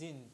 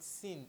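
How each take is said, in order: First: The word begins with a buzzing z sound. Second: The word begins with a hissing s sound. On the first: The speaker calls it right. "This S is pronounced like a Z" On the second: The speaker calls it wrong. "It is not sind"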